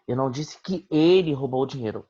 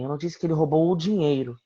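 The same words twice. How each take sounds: First: The word "ele" carries the main stress. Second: The word "dinheiro" carries the main stress. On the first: Someone else stole it, not him. "Alguém roubou, mas não ele" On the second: He stole other things, not the money. "Ele roubou algumas coisas, mas não o dinheiro"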